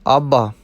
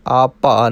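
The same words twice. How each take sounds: First: ਆਭਾ with a clear bh, not p; bh sound. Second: ਆਪਾ with a plain p; wrong p sound. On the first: Teacher corrects learners to ਆਭਾ, with bh not p. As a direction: voice the bh in the middle of ਆਭਾ. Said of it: "ਇਹ ਪਾਠ ਆਭਾ ਕਰਨਾ ਹੈ". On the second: Teacher shows the error to avoid, ਆਪਾ with plain p. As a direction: say ਆਪਾ, p in place of bh. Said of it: "ਆਪਾ ਨਹੀਂ ਕਰਨਾ". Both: Shown as a demonstration.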